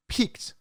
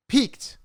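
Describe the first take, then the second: First: Said in the usual way. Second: Peaked punched high on its own; Peaked, set apart and emphasized; stress on peaked. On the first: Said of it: "I wanna repeat the word peaked". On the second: Shown as a demonstration. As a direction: hit the single word Peaked hard and high. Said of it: "I wanna emphasize the word peaked".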